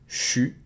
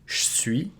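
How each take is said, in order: First: It is squeezed into one syllable, 'chu'. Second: The E is devoiced and nearly dropped. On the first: It is the most informal regional form. "get rid of the I and it becomes chu" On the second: It is a common less formal form. "you can devocalize the E and make it je suis"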